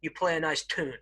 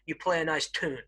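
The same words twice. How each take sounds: First: It is said in an American accent. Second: It is said in an American accent.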